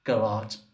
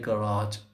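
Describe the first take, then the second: First: It is said with an Arabic accent. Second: It is said with an Arabic accent.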